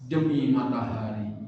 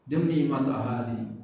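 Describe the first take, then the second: No difference in how they are said.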